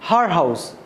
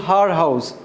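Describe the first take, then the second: The two takes are said the same way.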